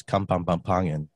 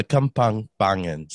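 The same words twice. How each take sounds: First: "Kampang Pampangan" run together with an extra syllable; fumbled tongue twister. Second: "Kampang Pangan" in separated chunks, a little firmer; careful repeat. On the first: Real, not acted. Guest tries a dialect name for listeners, fumbled "Kampang Pampangan". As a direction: stumble through "Kampang Pampangan" with a doubled "pam". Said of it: "I didn't even say it properly".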